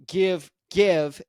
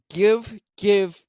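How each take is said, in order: Both takes have the same delivery.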